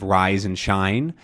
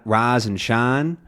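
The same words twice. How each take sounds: First: Said in the usual way. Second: Slow RISE and SHINE, each I one pure AH; single-sound I. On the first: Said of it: "instead of rise and shine". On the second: Shown as a demonstration. Teacher showing Southern rise and shine, monophthong vowel. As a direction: RISE and SHINE as "rahz" and "shahn". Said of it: "can become a single sound".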